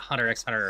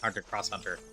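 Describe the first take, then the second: First: The letter X is said aloud between the words. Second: The word cross is said between the words. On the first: "It's not"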